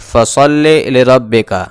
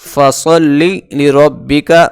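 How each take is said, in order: First: The i-vowels sound 'ay'-like. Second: The i-vowels sound like pure 'ee'. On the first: The speaker calls it wrong. "बाज़ लोग इसे मजहूल पढ़ते हैं" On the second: The speaker calls it right. "बल्कि मारूफ पढ़ना है"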